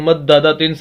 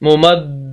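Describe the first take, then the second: First: The word ends with a full nasal 'tin' sound. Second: The word ends on a stopped, silent 'h' sound. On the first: The reciter continues without stopping. "ता दो जेर तीन, तनवीन गुन्ना होगा" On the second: The reciter pauses at this word. "पहले ता को हा से बदल देंगे और हा को साकिन कर देंगे"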